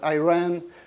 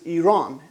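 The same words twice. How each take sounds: First: The name is said with an American accent. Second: The name is said with a native accent. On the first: The speaker calls it wrong. "with an American accent" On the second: The speaker calls it right. "the correct word for the country"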